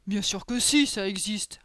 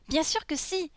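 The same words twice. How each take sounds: First: Put-on ogre character, reassuringly certain; assured ogre. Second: Put-on high little-girl voice, sure of herself; higher-pitched, confident girl character; insistent little girl. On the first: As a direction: answer firmly as the big ogre. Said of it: "répondit Boris". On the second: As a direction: insist as a small child heroine. Lolisa insists to Boris.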